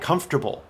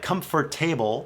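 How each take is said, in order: First: The middle is reduced, sounding like comfter-ble. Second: Every syllable is pronounced as it is spelled. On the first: "most native speakers say comfortable. A actually becomes an R sound. Comfter" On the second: "it looks like comfortable"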